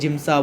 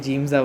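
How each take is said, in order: First: It starts with j and ends in sa. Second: It starts with j and ends in ja. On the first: "कोई जिम्सा बोलता है" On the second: "कोई जिम्जा बोलता है"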